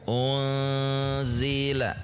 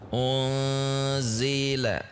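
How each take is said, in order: No difference in how they are said.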